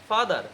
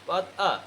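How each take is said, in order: First: The final r sound is clearly pronounced. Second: The word ends in a vowel with no r. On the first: The speaker calls it wrong. "এতদিন বলতাম হচ্ছে ফাদার" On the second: The speaker calls it right. "কি বলতে হবে পাদ আ"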